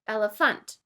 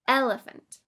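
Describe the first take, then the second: First: The stress falls on a later syllable. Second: The stress falls on the first syllable. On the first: The speaker calls it wrong. "It would be incorrect to say" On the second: The speaker calls it right. "with the stress on the first syllable"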